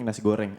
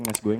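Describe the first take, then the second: First: The R is pronounced as a clear R. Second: The R is replaced by a glide sound. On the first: The speaker has finally learned the R sound. The speaker calls it right. "Akhirnya bisa" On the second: The speaker cannot yet say the R sound. The speaker calls it wrong. "karena dia cadel dia bilangnya nasi goyeng"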